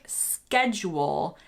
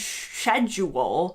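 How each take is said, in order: First: The C sound in the word is kept. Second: The C sound in the word is dropped. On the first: The speaker calls it right. "schedule is actually how it's written" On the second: The speaker calls it wrong. "schedule it just seems a little strange"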